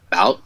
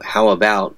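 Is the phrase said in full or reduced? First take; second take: reduced; full. First: The first syllables are dropped, leaving bout. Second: Both words are said in full.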